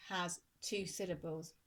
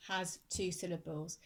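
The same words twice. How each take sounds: The two takes are said the same way.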